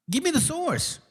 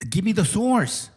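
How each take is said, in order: First: Much higher, softer, taunting; high, soft mock demand. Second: Said in the usual way. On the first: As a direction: squeak it back to mock him. Repeated demand, second take mocking.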